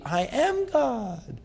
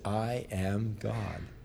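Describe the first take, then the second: First: It is said loudly and forcefully. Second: It is said quietly and hesitantly.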